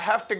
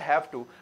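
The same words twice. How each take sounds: First: The two words blend quickly into one reduced word. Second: The two words are said separately and fully. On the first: "वो speed में ऐसे ही बोलते जाते हैं" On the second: "हमें बोलने की आदत और सुनने की आदत है"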